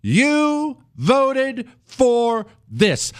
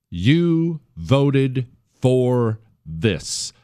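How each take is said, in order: First: Much higher, each word drawn out very slowly; "You" hit hard, then "voted for this" slow and final; slow, emphatic retort. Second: Each word spelled out very slowly; "You" stressed, then "voted for this" drawn out slowly; slow, deliberate. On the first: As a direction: drop the line word by word as a verdict. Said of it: "You know what you say to 'em?". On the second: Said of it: "Those magical words you say". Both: Shown as a demonstration.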